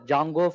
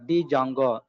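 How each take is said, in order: First: The initial D is silent. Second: The initial D is pronounced aloud. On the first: The speaker calls it right. "you need to call like this a Django framework" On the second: The speaker calls it wrong. "Don't say like a D Django"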